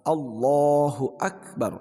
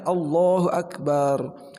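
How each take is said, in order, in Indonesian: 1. Vokal setelah b pendek. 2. Vokal setelah b dipanjangkan. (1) "kalau dipendekkan itu kan Allah yang maha besar" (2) "Jika dipanjangkan baknya"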